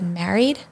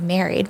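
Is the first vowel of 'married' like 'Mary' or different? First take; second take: different; like Mary. First: The first vowel differs from the vowel in Mary. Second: The first vowel sounds like the vowel in Mary. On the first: "at the time, I guess I said married" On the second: "now I say married"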